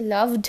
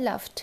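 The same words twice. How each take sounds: First: লাভড with voiced VD at the end; wrong D ending. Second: লাভড with voiceless FT at the end; crisp T closing লাভড; correct T ending. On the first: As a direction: say লাভড as "lavd". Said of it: "এরকম উচ্চারণ হবে না". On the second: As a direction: say লাভড as "laft". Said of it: "এটা কীভাবে উচ্চারণ হবে". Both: Shown as a demonstration.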